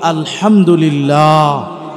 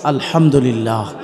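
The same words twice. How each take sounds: First: It is said louder, with more force. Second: It is said at normal, softer volume.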